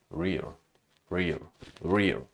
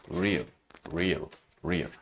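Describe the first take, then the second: Both takes have the same delivery.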